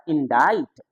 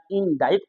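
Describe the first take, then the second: First: इंडाइट as "in-dait", no k; silent-C pronunciation. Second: इंडाइट said as "in-daikt", with k before t; mistaken pronunciation. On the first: Shown as a demonstration. Teacher corrects the misreading, इंडाइट with silent c. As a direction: stretch the "ai" in इंडाइट, then t. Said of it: "जबकि होता है". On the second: Retold or imitated. Teacher mimics another misreading, इंडाइट with audible k. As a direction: sound a k near the end of इंडाइट. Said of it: "या इंडाइट पढ़ेंगे".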